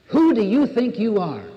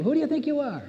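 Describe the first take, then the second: First: Loud, higher, challenging; life's challenge. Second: Much higher, scornful question; a sneering high-pitched dare; the man sneering at the woman, high and mocking; mocking challenge. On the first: Retold or imitated. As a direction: throw the question down like a dare. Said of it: "life says to us". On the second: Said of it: "the man was asking the woman".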